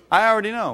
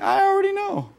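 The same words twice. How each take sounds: First: Said in the usual way. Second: "I already know" jumped far higher in a mock squeal; mocking know-it-all. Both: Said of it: "we're communicating to them".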